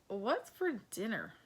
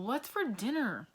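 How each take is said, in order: First: The voice sounds nervous and hesitant. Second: The voice sounds annoyed and irritated. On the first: "maybe I'm nervous" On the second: "maybe I'm annoyed"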